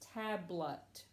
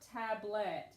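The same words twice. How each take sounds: First: The second vowel is reduced to a schwa. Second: The second vowel is a full short vowel. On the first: The speaker calls it right. "We more or less say it with a schwa" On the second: The speaker calls it wrong. "this is not tablet"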